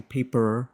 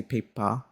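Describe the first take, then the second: First: American "paper" with the r sounded; American pronunciation. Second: Aussie "paper", ending in ah with no r; "paper" with an Australian open ending; Aussie pronunciation. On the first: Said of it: "like Americans would". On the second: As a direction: say "paper" like an Australian, "pay-pah". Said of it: "characteristic of the Aussie accent". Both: Shown as a demonstration.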